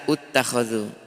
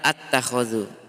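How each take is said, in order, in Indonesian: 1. Kata ini diawali dengan vokal u. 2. Kata ini diawali dengan vokal a. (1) "Ada juga baca ut-takhadhu" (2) "di sini banyak salah paham nih"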